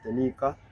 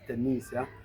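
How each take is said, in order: First: The consonant before the final vowel is 'k'. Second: The consonant before the final vowel is 'sh'. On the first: The speaker calls it right. "The pronunciation is Tanika" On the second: The speaker calls it wrong. "I used to pronounce her name as Tanisha because I miscued"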